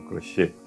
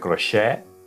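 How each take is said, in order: First: The final vowel is closed, mouth nearly shut. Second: The final vowel is open, mouth wider. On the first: The speaker calls it right. "senão crochê" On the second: The speaker calls it wrong. "não é crochê"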